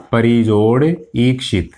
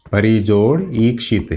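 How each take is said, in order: First: Slow, deliberate split into parts; slow dictation. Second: Said in the usual way. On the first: Shown as a demonstration. Teacher dictating the split to students, slow and deliberate. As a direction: spell it out slowly for students to write. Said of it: "teacher spells out the split". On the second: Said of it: "teacher repeats the split".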